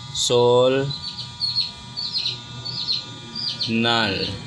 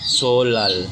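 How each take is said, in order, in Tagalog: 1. Ang gitnang katinig ay binibigkas na n. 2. Ang gitnang katinig ay binibigkas na l. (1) "Kung babasahin ay sol nal" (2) "Pero kung ipopronounce ay solal"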